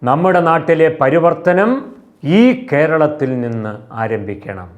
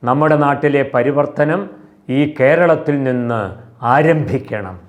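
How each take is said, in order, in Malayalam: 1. ഊന്നൽ വരുന്നത് പരിവർത്തനം എന്ന വാക്കിലാണ്. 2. ഊന്നൽ വരുന്നത് ആരംഭിക്കണം എന്ന വാക്കിലാണ്.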